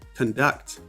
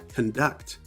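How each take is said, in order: First: The stress is on the second syllable. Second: The stress is on the second syllable.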